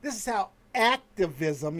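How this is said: Activism is said with ironic, air-quote emphasis.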